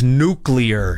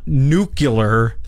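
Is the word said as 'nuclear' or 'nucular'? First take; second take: nuclear; nucular. First: It is said as 'nuclear', with the standard middle. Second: It is said as 'nucular', with a reordered middle. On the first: The speaker calls it right. "it's nuclear" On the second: The speaker calls it wrong. "He used to screw this up all the time. It's not nuclear"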